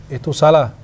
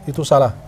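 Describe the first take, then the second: Both takes have the same delivery.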